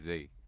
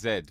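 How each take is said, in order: First: The letter is said the American way. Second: The letter is said the British way.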